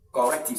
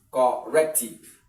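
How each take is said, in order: First: Said in the usual way. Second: Louder "Corrective" broken as cor, rec-tive; slow, emphatic split of "Corrective"; syllable by syllable. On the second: Shown as a demonstration. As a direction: punch out "Corrective" in separate parts. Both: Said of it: "second syllable from here should be".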